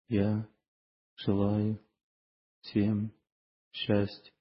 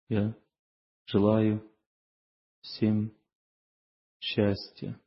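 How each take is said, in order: No difference in how they are said.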